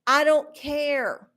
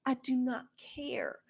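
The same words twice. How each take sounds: First: Said in the usual way. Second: I do not care said much softer; quiet. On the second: Real, not acted. Vlogger repeating she doesn't care, dropped quiet. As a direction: drop it to a near mutter.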